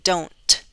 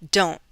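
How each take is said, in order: First: The T is released with a strong breathy puff. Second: The T is cut off with a glottal stop. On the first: The speaker calls it wrong. "I'm not saying don't, ... That's not what I'm suggesting" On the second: The speaker calls it right. "With a glottal stop"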